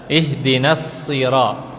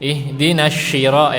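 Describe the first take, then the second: First: The consonant is a sharp s sound. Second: The consonant is a soft sh sound. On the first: The speaker calls it right. "kalau so ada suara tajamnya" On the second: The speaker calls it wrong. "bukan ihdinasy, ihdinasyira ya, itu salah"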